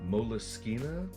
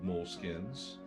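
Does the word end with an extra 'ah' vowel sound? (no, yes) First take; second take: yes; no. First: The word ends with an extra 'ah' vowel. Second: The word ends without an extra final vowel. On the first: "I've heard them pronounced Moleskina" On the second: "So maybe I'm pronouncing that incorrectly"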